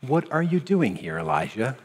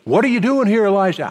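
First: Quiet, lower, gentle question; softly spoken divine question; voice of God, gentle. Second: The same question yet again, fed up; an irritated echo of God's question; mock exasperated repeat. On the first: Acted. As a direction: ask it tenderly as God would. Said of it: "The voice said to him".

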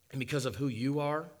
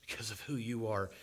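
First: Who pushed up with a rising end; rising emphasis. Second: Softer, who falling away; a quiet falling echo of the line. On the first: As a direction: stress on who, rising tune. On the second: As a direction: drop the repeat to a hush on who. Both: Acted. Repeated line, two readings.

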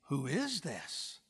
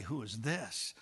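First: "is" lifted and drawn out in wonder; wondering stress on IS. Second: Said in the usual way. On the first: Acted. Churchgoer seeing Christ's bride, marvelling with a drawn-out "is". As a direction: linger softly on "is", pitch rising then falling. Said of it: "You'll say". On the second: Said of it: "you won't say".

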